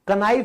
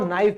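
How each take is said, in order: First: A k sound is pronounced before the n. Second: The word starts directly with the n sound. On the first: The speaker calls it wrong. "कनाइफ नहीं होगा" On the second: The speaker calls it right. "इसको नाइफ बोलेंगे"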